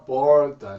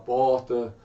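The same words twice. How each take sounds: First: São Paulo accent, with a pulled R. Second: Another regional accent, without the pulled R.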